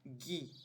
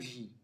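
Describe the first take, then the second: First: The syllable starts with a hard G sound. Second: The syllable starts with a soft G sound. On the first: The speaker calls it right. "ele tem um som de G U" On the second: The speaker calls it wrong. "e não gi"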